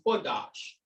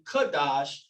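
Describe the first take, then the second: First: The word begins with a KW sound. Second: The word begins with a plain K sound. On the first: "gives us the qua sound" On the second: "Q can be pronounced as a K sometimes"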